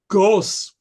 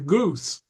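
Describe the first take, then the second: First: The vowel is the older, unshifted vowel. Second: The vowel is the modern 'oo' sound. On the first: This is the older Middle English pronunciation. "was the way Chaucer pronounced it" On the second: This is the later, shifted pronunciation. "By Shakespeare's time, it was closer to goose"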